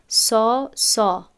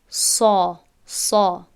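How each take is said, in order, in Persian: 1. این صامت سبک است، بدون زبان کاملاً بالا و پر. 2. این صامت سنگین است، با زبان کاملاً بالا و پر. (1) "شاگردی که قبلا تجوید ناموخته باشد شاید بگوید سا سا" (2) "این را ما باید تلفظ کنیم سا سا"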